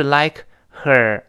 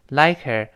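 First: LIKE, then HER with a clear breathed h; unlinked "like her", both words given full value; separate words, full h. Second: LIKE HER run together as "like-er"; one smooth "like-er" for "like her"; linked, weak h. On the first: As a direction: split "like her" and sound the h fully. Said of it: "而不是like her". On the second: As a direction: drop the h of "her" into the k of "like her". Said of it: "H似有似无的". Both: Shown as a demonstration.

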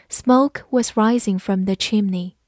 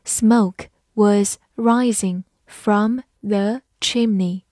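First: Said in the usual way. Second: Slow, deliberate reading; slow read-through. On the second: Shown as a demonstration. Teacher reading the example slowly for students. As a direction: read each word slowly and clearly. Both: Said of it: "好，慢慢来读".

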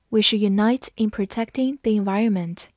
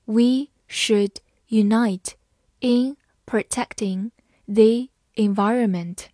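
First: Said in the usual way. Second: Slow start, word by word; slow reading. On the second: Shown as a demonstration. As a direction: read it slowly for learners. (慢速朗读) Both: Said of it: "好，慢慢来读。".

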